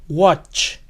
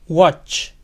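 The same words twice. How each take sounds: The two takes are said the same way.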